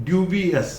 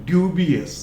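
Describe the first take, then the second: The two takes are said the same way.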